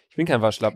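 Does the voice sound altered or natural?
natural. The voice sounds natural, like his usual voice.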